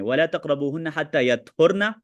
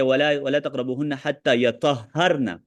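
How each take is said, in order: First: यतहुरना said light, with no doubled consonant; the reading without shadda; light reading yatuhrna. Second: यतहरना said with the doubled consonant held; the reading with shadda. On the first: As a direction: recite "यतहुरना" short and unstressed, no shadda. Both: Shown as a demonstration. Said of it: "शद के साथ".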